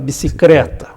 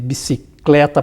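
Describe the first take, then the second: First: The L is replaced by an R sound. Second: The L is kept as an L sound. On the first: "troca um L" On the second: "Nem troca um L"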